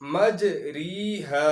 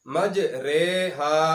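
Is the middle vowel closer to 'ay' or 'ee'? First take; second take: ee; ay. First: The middle vowel sounds like 'ee'. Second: The middle vowel sounds like 'ay'. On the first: The speaker calls it wrong. "मज री हा नहीं पढ़ा जाएगा" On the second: The speaker calls it right. "रवानी से पढ़ेंगे तो ये मज रे हा पढ़ा जाएगा"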